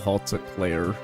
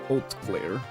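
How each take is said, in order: First: The opening H is pronounced. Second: The opening H is silent. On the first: The speaker calls it wrong. "I always call it the Hot Eclair" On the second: The speaker calls it right. "The H is silent, so it's Haute Claire"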